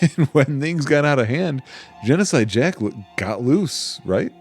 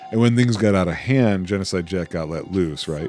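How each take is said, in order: First: It is said in the speaker's ordinary voice. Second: It is said in a put-on character voice. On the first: The speaker calls it wrong. "Oh, wrong" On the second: The speaker calls it right. "trying to do her quote unquote voice"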